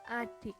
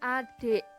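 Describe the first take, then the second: First: The last vowel is a clear i. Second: The last vowel is an open e. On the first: The speaker calls it right. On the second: The speaker calls it wrong. "I diucapkan menjadi e taling"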